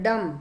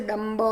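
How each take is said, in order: First: "dumb" ending on the M sound, B left silent. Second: "डम ब" with an added, voiced "buh" after the M; sounded B, wrong. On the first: Teacher showing the class silent B, "dumb" said without B. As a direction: say "dumb" with no B at the end. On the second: Teacher showing what not to say, "डम ब" with B sounded. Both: Shown as a demonstration. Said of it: "ब नहीं बोलते".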